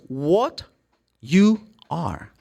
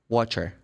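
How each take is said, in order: First: Each word is said slowly and separately. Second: The words run together fast and reduced.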